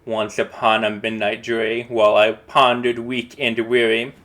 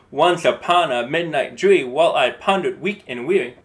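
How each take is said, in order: First: Measured first reading of the verse; calm recital of the poem's first line. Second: "Once upon a midnight dreary" with every odd syllable hit harder, louder beat; trochaic stress. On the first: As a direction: read the opening line plainly, as verse. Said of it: "we're gonna read it". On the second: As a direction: pound out the strong-weak meter. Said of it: "strong, weak, strong, weak". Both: Shown as a demonstration.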